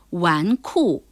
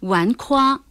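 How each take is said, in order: First: The second syllable is kù, falling tone. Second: The second syllable is kuā, level tone. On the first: The speaker calls it right. "而是纨绔" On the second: The speaker calls it wrong. "纨绔还真不能读成纨夸或纨胯"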